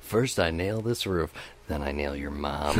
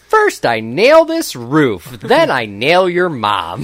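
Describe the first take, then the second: First: It is said in his normal voice. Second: It is said in a Bob the Builder voice.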